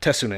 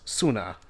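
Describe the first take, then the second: First: The initial T sound is pronounced. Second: The initial T sound is silent. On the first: The speaker calls it wrong. "it's not Tesuna" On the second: The speaker calls it right. "it's a silent T, so it's Suna"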